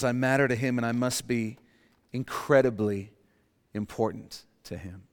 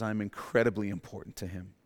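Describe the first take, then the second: First: Sincere statement. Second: Softer sincere statement. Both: Shown as a demonstration. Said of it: "The blood of Jesus says".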